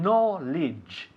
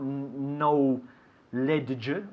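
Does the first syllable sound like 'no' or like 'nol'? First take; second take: nol; no. First: The first syllable is short, not like 'no'. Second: The first syllable sounds like the word 'no'. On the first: The speaker calls it right. "Escúchalo bien" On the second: The speaker calls it wrong. "Not no ledge or anything"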